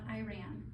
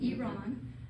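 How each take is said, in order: First: It sounds like the English words 'I ran'. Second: It does not sound like 'I ran'. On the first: The speaker calls it wrong. "It's not Iran" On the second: The speaker calls it right. "So it's Iran"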